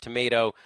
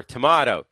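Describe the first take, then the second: First: "tomato" with a long AY, tuh-MAY-toh; American tomato. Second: "tomato" with a broad AH, tuh-MAH-toh; contrasting AH vowel in "tomato"; British tomato. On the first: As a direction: say "tomato" to rhyme with potato. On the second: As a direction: say "tomato" with middle like "ma". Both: Shown as a demonstration. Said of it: "it should be pronounced tomato or tomato".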